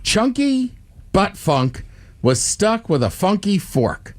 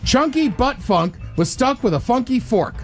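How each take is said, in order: First: It is said at a normal pace. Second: It is said quickly.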